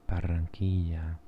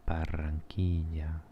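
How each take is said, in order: The two takes are said the same way.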